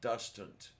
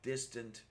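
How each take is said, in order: First: The first vowel sounds like a 'u'. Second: The first vowel is a clear 'i' sound. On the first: "sounds like dustant. I know the New Zealanders do that" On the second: "we Americans usually say pronounce as distant"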